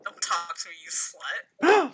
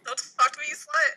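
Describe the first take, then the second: First: Starts low, jumps up on the last word; acted snub. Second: High, raised-voice brush-off, rising at the end; acted snub. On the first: Friend redoing the line to Jimmy, acted snub. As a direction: begin lower, then lift sharply into the insult. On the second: Friend reading Jimmy a catchphrase line, acted snub. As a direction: snap it out higher and louder, as a line read.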